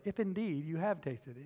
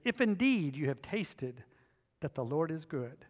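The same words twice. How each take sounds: First: Sarcastic. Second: Said in the usual way. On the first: Shown as a demonstration. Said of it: "there's a little bit of sarcasm there". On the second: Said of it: "I read that and go".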